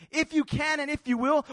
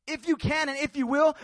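The two takes are said the same way.

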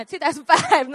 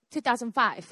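First: "two thousand five" said louder and firm; louder, insistent "two thousand five"; emphatic correction. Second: Said in the usual way. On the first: Real, not acted. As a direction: correct the year, landing hard on "five". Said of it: "not fifteen".

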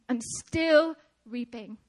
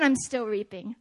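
First: "still" drawn out slowly, then a pause; slow, deliberate weight on "still"; emphatic repeat. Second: Said in the usual way. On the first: Real, not acted. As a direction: stretch "still" and set "reaping" apart.

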